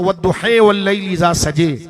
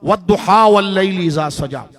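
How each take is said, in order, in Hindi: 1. अंतिम स्वर 'e' की तरफ झुकते हैं। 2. अंतिम स्वर खुले 'a' जैसे लगते हैं। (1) "दूसरे इमाम की तरफ जाए तो" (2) "मशहूर सूरत"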